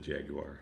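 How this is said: Jaguar is said with a posh British pronunciation. "probably with the Jaguar. just to be a little snooty"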